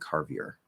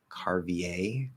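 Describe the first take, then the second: First: The name is pronounced with an English-style sound. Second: The name is pronounced with a French-style sound. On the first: "sticking within the bounds of English" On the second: "that seems a little French kind of to me"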